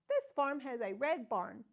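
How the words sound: It is said as a question, rising.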